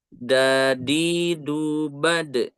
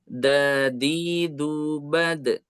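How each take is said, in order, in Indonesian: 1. Bunyi d dibuat di dalam mulut. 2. Bunyi d dibuat dengan ujung lidah di gigi. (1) "kalau yang pertama itu dalam ya" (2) "yang kedua itu itu ujung lidah dengan dinding gigi seri atas ya"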